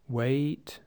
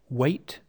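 First: The vowel is drawn out long. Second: The vowel is short and clipped. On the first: The speaker calls it wrong. "Be careful you're not saying" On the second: The speaker calls it right. "Keep the vowels short because the consonant following them is unvoiced"

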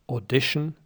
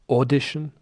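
First: The stress is on the second syllable. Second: The stress is on the first syllable. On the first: The speaker calls it right. "But listen again, it's" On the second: The speaker calls it wrong. "Icelanders might say"

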